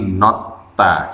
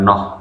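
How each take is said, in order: First: The word is said with a t sound. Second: The word is said with an h sound. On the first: The speaker calls it right. "tapi nota, dibaca huruf T saja" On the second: The speaker calls it wrong. "jangan noh"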